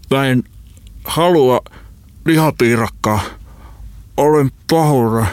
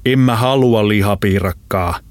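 First: High, strangled voice in broken bursts; choking. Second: Restrained threat, fully voiced; contained anger as you close in; quiet menace. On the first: Friend apologises while being throttled, choking out the words. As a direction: force words out against a hand on the throat. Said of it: "Holopainen kakisteli". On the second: Big man closes in on his friend, menacingly controlled. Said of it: "iso mies sanoi hiljaa lähestyessään". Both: A narrator's reading.

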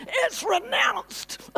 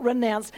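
First: RENOUNCED shouted high and drawn out; emphatic RENOUNCED. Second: Said in the usual way. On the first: Shown as a demonstration. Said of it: "strongly emphasizing". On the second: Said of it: "this is just not renounced".

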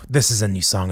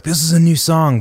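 First: Said in the usual way. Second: Raised, louder announcing of a new song; eager announcement. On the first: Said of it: "like, you know". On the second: Retold or imitated. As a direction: announce it proudly to the crowd. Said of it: "I was like".

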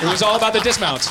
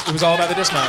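First: Excited exclaim. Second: Said in the usual way. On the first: Real, not acted.

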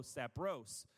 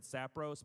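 First: "Sapros" with the stress moved to the O, sa-PROS. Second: "sapros" with stress on the first syllable, SA-pros; wrong stress. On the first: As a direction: correct "Sapros" by hitting the O. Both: Shown as a demonstration. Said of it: "No, the emphasis on the O".

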